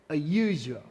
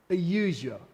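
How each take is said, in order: Both takes have the same delivery.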